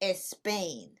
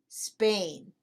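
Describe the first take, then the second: First: The word starts with an added E vowel. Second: The word starts directly with the S sound. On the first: The speaker calls it wrong. "not Spain" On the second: The speaker calls it right.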